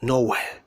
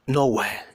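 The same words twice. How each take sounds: The two takes are said the same way.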